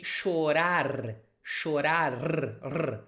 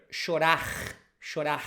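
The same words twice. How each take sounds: First: Chorar with tapped r and clear final r; southern Brazilian chorar. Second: Chorar with the final r dropped; Rio-style chorar. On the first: Teacher modelling the southern way of saying chorar. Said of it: "in my region, in the south, we say". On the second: Teacher imitating how people in Rio say chorar. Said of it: "In Rio and sometimes Minas Gerais". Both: Shown as a demonstration.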